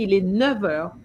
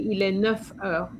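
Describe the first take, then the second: First: Neuf is linked with a V sound. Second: Neuf is linked with an F sound. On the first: The speaker calls it right. "A nice V sound" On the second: The speaker calls it wrong. "You're not going to say"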